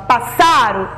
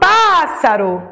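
First: The stress is on the middle syllable. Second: The stress is on the first syllable. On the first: The speaker calls it wrong. "Foi a do meio, a penúltima? Passaro? Não" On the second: The speaker calls it right. "eu falo pássaro"

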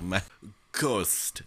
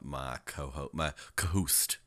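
First: The h sound in co-host is dropped. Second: The h sound in co-host is pronounced.

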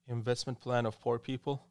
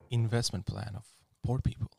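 First: It is said in a flat, robotic voice. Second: It is said in a seductive, sexy voice.

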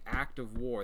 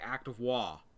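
First: The final r sound is pronounced clearly. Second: The final r sound is dropped, Boston style. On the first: "they don't say "act of war,"" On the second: "they said it with an accent"

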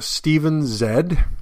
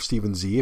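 First: The letter is said as 'zed', non-American. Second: The letter is said as 'zee', American.

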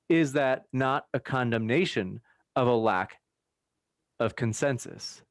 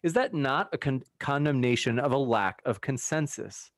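First: The question is read at a slow pace. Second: The question is read at a fast pace. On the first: The speaker calls it right. "Let me slow down" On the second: The speaker calls it wrong. "I was reading it fast"

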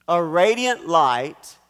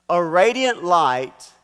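Both takes have the same delivery.

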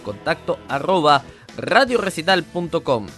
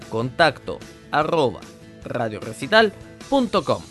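First: It is said at normal speed. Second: It is said slowly.

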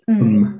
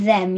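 First: The word is reduced to a short em sound. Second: The word is said in full with the th sound. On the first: "you say mm" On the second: "instead of them"

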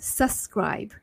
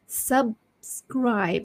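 First: The 'b' sound is dropped and the word is rushed. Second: The 'b' sound is clearly said before 'scribe'. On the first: The speaker calls it wrong. "sometimes when you speak too fast, you tend to say subscribe" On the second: The speaker calls it right. "So it should be subscribe. So you have to say the B first"

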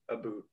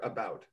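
First: The word is said with a Canadian accent. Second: The word is said with an American accent. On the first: "I've only heard one particular word" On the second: "for the American speakers in this room"

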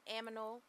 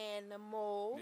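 First: The m sound comes before the n sound. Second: The n sound comes before the m sound. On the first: The speaker says it without thinking. The speaker calls it wrong. "if I don't think about it, I say words like simonin, aminal" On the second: The speaker says it while thinking about it. The speaker calls it right. "But if I think about it"

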